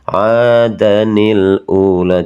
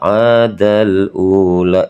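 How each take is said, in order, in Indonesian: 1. Bunyi sambung 'ni' menyambungkan kedua kata. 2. Kedua kata tersambung langsung tanpa bunyi sambung 'ni'. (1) "Jadi harus dibaca adanil ula" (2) "itu cara baca yang salah"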